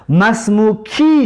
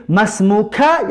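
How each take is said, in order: First: مسموکی said slowly, final ی stretched; teacher sounds out مسموکی, feminine ending; slow Arabic demo. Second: مسموکه said slowly with clear final ه; teacher sounds out مسموکه, masculine ending; slow Arabic demo. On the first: Teacher contrasts feminine form for the class, slow and clear. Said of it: "نام تو زن". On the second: Teacher contrasts masculine form for the class, slow and clear. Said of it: "نام تو مرد". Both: Shown as a demonstration.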